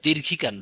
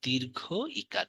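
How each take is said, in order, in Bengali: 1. দুটি শব্দ বিরতি ছাড়াই একসাথে বলা হয়। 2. একটু বিরতি দিয়ে দুটি শব্দ আলাদা করা হয়। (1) "বা দীর্ঘিকার না" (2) "দীর্ঘ বলে একটু পজ নেবেন, তারপরে ইকার"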